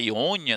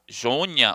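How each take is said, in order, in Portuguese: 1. O nome começa com uma vogal de som ee. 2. O nome começa com uma consoante de som zh.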